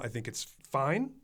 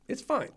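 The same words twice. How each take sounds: First: Said in the usual way. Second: "It's fine." jumps much higher, sing-song; mock high "fine". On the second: Shown as a demonstration. Critic shrugs off the movie, squeaking "It's fine." higher. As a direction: critic mocks his own verdict, in a much higher voice.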